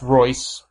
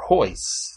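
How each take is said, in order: First: The name begins with an R sound. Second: The name begins with an H sound. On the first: The speaker calls it right. "pronouncing the R" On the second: The speaker calls it wrong. "like Hoyce Gracie"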